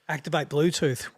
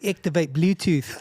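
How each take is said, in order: First: It is said in the speaker's natural accent. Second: It is said in a put-on foreign accent. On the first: The car's voice system did not understand it. "wouldn't work" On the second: The car's voice system understood it. "I don't even do good accents"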